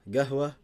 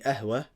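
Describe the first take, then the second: First: The word begins with a hard g sound. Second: The word begins with a glottal stop. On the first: This is the Saudi dialect form. "the qaf it changes to a g" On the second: This is the Egyptian dialect form. "qaf is a. It's like hamza"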